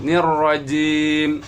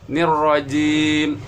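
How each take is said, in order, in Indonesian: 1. Huruf m di akhir berhenti mendadak. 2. Huruf m di akhir berhenti mendadak.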